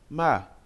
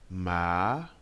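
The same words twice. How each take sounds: First: The pitch moves sharply and abruptly. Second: The pitch climbs from low to high. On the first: "Le quatrième ton est brusque" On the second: "Le deuxième ton part d'une voix grave pour aller dans les aigus"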